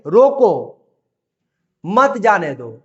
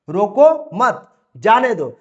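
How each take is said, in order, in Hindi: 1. रोको के बाद विराम है। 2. मत के बाद विराम है। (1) "यहां पर बोलेंगे" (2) "यहां पर हम बोलेंगे कि रोको मत"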